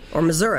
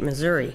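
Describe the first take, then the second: First: It is said the way locals say it. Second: It is said the usual outsider way.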